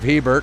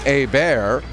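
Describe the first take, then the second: First: The name is pronounced the English way. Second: The name is pronounced the French way. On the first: "pronounce it anglicized" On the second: "the more francophone pronunciation"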